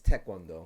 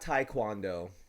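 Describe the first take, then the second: First: The first syllable sounds like 'tay'. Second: The first syllable sounds like 'tie'. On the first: The speaker calls it right. "It's Taekwondo" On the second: The speaker calls it wrong. "it is not Taekwondo"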